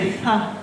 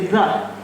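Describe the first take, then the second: First: It begins with a voiceless, hissing th sound. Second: It begins with a voiced, buzzing th sound. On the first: The speaker calls it wrong. "we don't say th" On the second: The speaker calls it right. "we say the"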